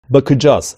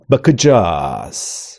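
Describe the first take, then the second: First: The word is said with natural, even stress. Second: The word is said with odd, misplaced stress. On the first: The speaker calls it right. "şeklinde telaffuz edilmesi gerekirken" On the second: The speaker calls it wrong. "gibi garip bir tonlamayla, vurguyla bir telaffuz"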